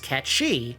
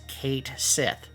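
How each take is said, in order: First: The name sounds like the word 'catchy'. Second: The name sounds like 'kate sith', two words. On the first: This is the original Gaelic pronunciation. "the original Celtic or, or Gaelic version, which is pronounced" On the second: This is the pronunciation the game company endorses. "According to Square Enix, it is actually pronounced"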